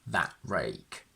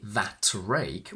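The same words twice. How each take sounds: First: The t in 'that' is a glottal stop. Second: The t in 'that' is fully released. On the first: The speaker calls it right. "we say" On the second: The speaker calls it wrong. "We don't say"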